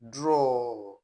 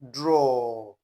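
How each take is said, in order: First: It is said as one syllable, like 'draw'. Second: It is said as one syllable, like 'draw'.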